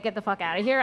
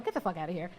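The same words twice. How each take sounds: First: Said in the usual way. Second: Quiet disbelieving mutter under her breath; muttered to herself. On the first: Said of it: "when I said". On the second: Retold or imitated. Thinking it to herself on hearing friend is pregnant, quietly stunned. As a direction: say it low to yourself, stunned. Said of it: "And I said to myself".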